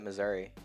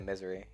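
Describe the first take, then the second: First: The word is pronounced as standard Missouri. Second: The word is pronounced to sound like misery. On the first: "some people say pronounce it Missouri" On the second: "some people say misery"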